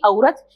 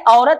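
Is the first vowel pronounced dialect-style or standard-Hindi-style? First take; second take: dialect; standard-Hindi. First: The first vowel has the shifted dialect quality. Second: The first vowel has the standard Hindi quality. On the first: The speaker calls it right. "बल्कि औरत" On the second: The speaker calls it wrong. "औरत नहीं"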